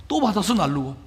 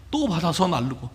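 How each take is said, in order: Both takes have the same delivery.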